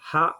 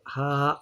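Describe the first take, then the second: First: The vowel is held short. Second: The vowel is drawn out long. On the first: "इतना हम पढ़ते थे हम हा ज़बर हा" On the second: "थोड़ा-सा लंबा है"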